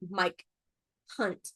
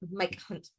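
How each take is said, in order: First: The two words are said clearly and separately. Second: The two words are slurred together into one. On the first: "She was not saying like Mike Hunt" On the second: "she was not e- enunciating"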